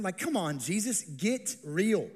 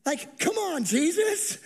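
First: Slow, dry, unimpressed; dry sarcasm. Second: High, incredulous whine at Jesus; mock-exasperated, pitched way up; sarcastic disbelief. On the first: Acted. Disciples telling Jesus to get real, slow and dry. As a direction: drag out get real, deadpan. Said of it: "You feel the sarcasm?". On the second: Disciples whining at Jesus, high and sarcastic. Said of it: "respond with the same sarcasm".

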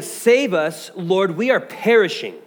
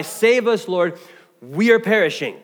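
First: "Save us" stretched out slowly, a read-aloud plea; slow scripture reading. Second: "Save us" cried out higher and louder; earnest cry. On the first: Acted. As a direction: draw out the plea, reading it from the page. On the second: Shown as a demonstration. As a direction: cry it out as the church's own plea for rescue. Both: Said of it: "this ought to be our cry".

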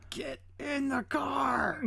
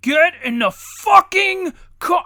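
First: High, drawn-out strained holler, held back in volume; acted parental yell. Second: Slow, high, full-volume furious dad shout; loud cursing yell. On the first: Dad yelling at his kids before the neighbors, stretched-out holler. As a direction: mock-scream it slowly at the kids, high and strained. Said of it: "I curse at 'em loudly". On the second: Acted. Dad cursing at his kids before the neighbors, loud angry yell. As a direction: bellow it at the kids, leaning on the curse. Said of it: "I curse at 'em loudly in front of my neighbors".

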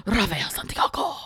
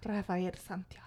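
First: Low sultry name drop; sexy voice. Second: Soft, low seductive name; sexy voice. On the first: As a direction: purr the name seductively. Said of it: "I was trying to be sexy". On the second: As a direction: breathe the name like a flirt. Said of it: "Do a sexy voice". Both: Acted.

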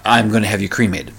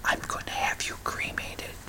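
First: Said in the usual way. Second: Barely voiced whisper, very soft; a hushed demo whisper for his wife's ear. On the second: Shown as a demonstration. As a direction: breathe it right into her ear. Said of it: "I would whisper something like".

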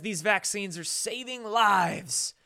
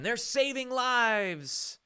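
First: Mock Irish leprechaun accent; slow, hammy Irish lilt. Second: Slow mocking Irish leprechaun lilt; drawn-out hammy leprechaun voice. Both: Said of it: "My leprechaun voice cracks you up".

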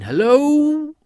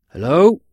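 First: Long, very high, loud holler; drawn-out shout soaring upward; calling out. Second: Loud, rising call into an empty room; raised voice, pitched up. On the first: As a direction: stretch the hello into a big echoing call. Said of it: "He called out again". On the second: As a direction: cry out a questioning hello. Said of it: "cried out Caractacus". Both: A narrator's reading.

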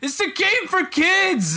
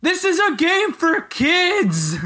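First: Exasperated. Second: High, slow disbelieving protest; exasperated. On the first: Exasperated outburst about kids' game. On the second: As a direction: stretch it out in disbelief. Exasperated repeat of complaint. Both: Real, not acted.

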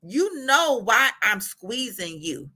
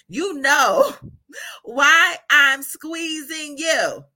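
First: Said in the usual way. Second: Louder, slow and drawn out, laughing through it; emphatic repeat. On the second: Retold or imitated. Speaker voices God repeating why the squeezing happens, emphatic and laughing. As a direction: hammer "You know why" word by word with a laugh.

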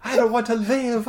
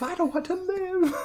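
First: High hammed-up wail of despair; mock despair. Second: Pitched up further, a hammed-up wail; mock despairing wail. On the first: Quoting the film's self-pitying line, mock despair. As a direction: overplay the melodramatic whine. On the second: Repeating the film's line to the co-host, mock despairing wail. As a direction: push the whine even higher.

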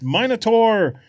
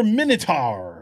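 First: "Minotaur" as MINE-uh-tor; long i opening "Minotaur", like "my"; first pronunciation. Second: "Minotaur" as MIN-uh-tar; short i opening "Minotaur", like "min"; second pronunciation. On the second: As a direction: say "Minotaur" with a short i and open ending. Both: Shown as a demonstration. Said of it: "So is it pronounced".

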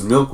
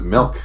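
First: Said in the usual way. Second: "milk" said as "melk". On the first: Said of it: "Who says milk with an E?". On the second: Retold or imitated. Host teasing his friend's pronunciation, "milk" as "melk". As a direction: swap the short i in "milk" for an e, "melk". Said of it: "you pronounce it milk".

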